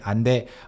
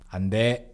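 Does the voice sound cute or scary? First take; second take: cute; scary. First: It is said in a cute, soft voice. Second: It is said in a stern, scary voice. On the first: The speaker calls it wrong. "you don't say 안 돼 in a cute voice like that" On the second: The speaker calls it right. "Scary voice"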